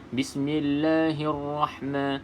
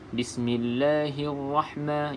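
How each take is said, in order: No difference in how they are said.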